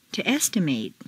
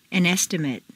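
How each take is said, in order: First: "estimate" ending in long "-MATE"; full A ending. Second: "estimate" ending in weak "-mut"; reduced ending. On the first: Teacher models verb "estimate" with full final A. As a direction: open out the last A of "estimate". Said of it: "it's a full A sound". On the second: Teacher models noun "estimate" with reduced final vowel. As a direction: shrink the last vowel of "estimate". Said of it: "completely reduced". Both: Shown as a demonstration.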